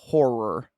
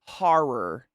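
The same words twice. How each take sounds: First: It is said with a standard vowel. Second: It is said with a Pennsylvania vowel. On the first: "instead of" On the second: "they say, like, horror"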